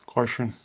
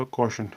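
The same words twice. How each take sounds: First: कॉशन said kaa-shun, with an open aa; कॉशन pronounced kaa-shun; open a in caution. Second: कॉशन said ko-shun, with a rounded o; कॉशन pronounced ko-shun; rounded o in caution. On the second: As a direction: say कॉशन as ko-shun, lips rounded on the first vowel. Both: Shown as a demonstration. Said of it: "या कॉशन".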